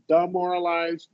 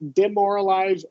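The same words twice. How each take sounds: First: The first vowel is a reduced schwa sound. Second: The first vowel is a short i sound.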